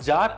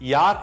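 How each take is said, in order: First: The word begins with a J sound. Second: The word begins with a Y sound. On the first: The speaker calls it wrong. "it is not jar in German" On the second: The speaker calls it right. "it is yar in German"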